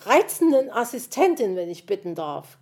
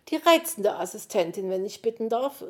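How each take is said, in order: First: Squawking retort. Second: Mildly haughty, controlled correction; prim correction. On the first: Magpie yells her title back at the fox, squawking. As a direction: bawl the title back indignantly. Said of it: "krakeelte es ihm entgegen". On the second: Magpie corrects the speaker about her title, primly. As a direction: correct him primly without raising the volume much. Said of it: "wurde er prompt verbessert". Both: A narrator's reading.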